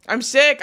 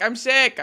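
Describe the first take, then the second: First: Louder, higher, rising on sick; loud complaint. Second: Louder and higher, sick falls flat; loud complaint. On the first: Streamer tells chat she is ill, loud rising complaint. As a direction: announce it with exasperation. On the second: Streamer repeats to chat she is ill, loud falling complaint. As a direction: repeat it, fed up. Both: Real, not acted.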